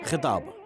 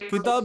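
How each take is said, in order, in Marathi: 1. पहिला व्यंजन श्वासयुक्त kh आहे. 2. पहिला व्यंजन साधा k आहे. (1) "जोर द्यायचा ख वर जरा" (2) "किताब नाही मित्रा"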